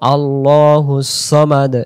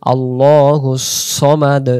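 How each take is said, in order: No difference in how they are said.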